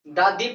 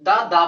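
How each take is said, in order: First: "दी" with a long ee ending; vowel form of "the". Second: "दा" with an open a ending, no ee; consonant form of "the". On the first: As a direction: say "दी", rhyming with "see". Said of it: "vowels के अनुसार दा दी पढ़ाएगा". (स्वर से पहले वाला "दी", लंबी ई के साथ) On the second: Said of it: "consonant के हिसाब से". (व्यंजन से पहले वाला "दा", आ की ध्वनि) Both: Shown as a demonstration.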